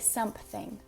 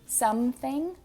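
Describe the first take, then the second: First: It is said with a P sound. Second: It is said without a P sound. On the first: "we say something. There's just a random P there" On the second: "We don't say something"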